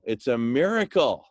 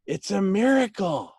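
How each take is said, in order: First: Said in the usual way. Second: Excited echo. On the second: Retold or imitated. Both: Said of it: "they were just saying".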